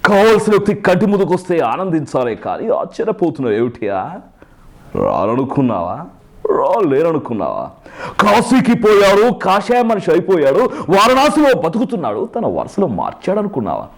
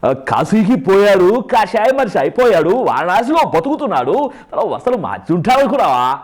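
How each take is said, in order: First: Chiranjeevi film hero. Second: Sway the pitch through each stretched phrase; Chiranjeevi dubbed now. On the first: Mimic demonstrating an older Chiranjeevi dialogue, ringing dramatic delivery. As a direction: declaim it like a mass-film hero. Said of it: "ఇప్పుడు అది లేదు". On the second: Mimic trying to re-dub the old line, exaggerated swooping hero voice. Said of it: "ఇప్పుడు దీనికి dubbing చెప్పమంటే". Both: Shown as a demonstration.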